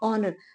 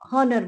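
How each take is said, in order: First: The word begins directly with a vowel. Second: The word begins with an h sound. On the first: The speaker calls it right. "उसमें एच silent है" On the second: The speaker calls it wrong. "वो गलत है"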